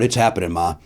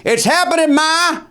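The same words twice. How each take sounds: First: Said in the usual way. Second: High-pitched excited yell to mom; retold yell. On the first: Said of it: "Well, I yelled out". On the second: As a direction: holler it high through the house, not at full volume. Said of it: "I remember yelling".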